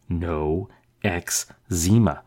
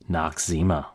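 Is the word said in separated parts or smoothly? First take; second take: separated; smooth. First: The word is split into separate parts. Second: The word is said smoothly as one unit. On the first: "try breaking it into smaller bits" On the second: "as we normally pronounce it"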